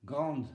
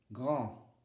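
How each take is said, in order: First: "Grande" with the D sounded, E silent; silent final E. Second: "Grand" with the D left silent; silent final D. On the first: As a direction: close "Grande" on a clear D. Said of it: "le E ne se prononce pas". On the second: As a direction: end "Grand" on the nasal vowel, no D sound. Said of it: "le D ne se prononce pas". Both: Shown as a demonstration.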